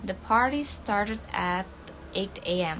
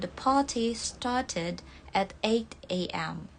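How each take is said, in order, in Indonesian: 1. Bunyi t-nya lembut, mirip d. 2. Bunyi t-nya diucapkan sebagai t yang jelas.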